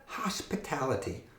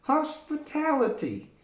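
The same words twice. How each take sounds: First: Said in the usual way. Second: High puppet voice says Hospitality. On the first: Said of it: "Can you say that?". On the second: Acted. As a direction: let the puppet parrot Hospitality. Puppet repeats word.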